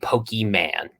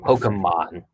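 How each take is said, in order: First: The first syllable ends in a long 'ee' sound. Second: The first syllable ends in a short 'eh' sound. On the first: The speaker calls it wrong. "Why would they be Pokeyman?" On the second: The speaker calls it right. "There's a little accent"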